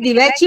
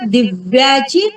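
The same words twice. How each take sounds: First: The first syllable is short and light. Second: The first syllable is stressed and heavy. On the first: It refers to a lamp. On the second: It refers to a remarkable feat.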